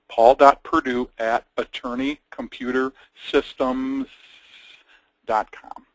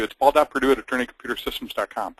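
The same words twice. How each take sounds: First: Slow, deliberate dictation; slow, spelled out. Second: Plain. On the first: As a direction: say it slowly for note-takers. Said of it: "for those of you who aren't familiar". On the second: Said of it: "So I'll tell you". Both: Shown as a demonstration.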